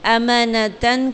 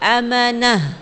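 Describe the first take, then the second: First: The word ends with a 't' and nasal ending. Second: The word ends with a soft 'h' sound.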